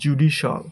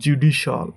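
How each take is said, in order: First: The ending is said as one syllable, shal. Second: The same.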